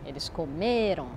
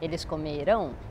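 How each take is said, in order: First: The stress is on the second-to-last syllable. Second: The stress is on the last syllable. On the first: They ate. "la syllabe tonique est l'avant-dernière" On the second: They will eat. "c'est la dernière syllabe qui est, qui est la syllabe forte"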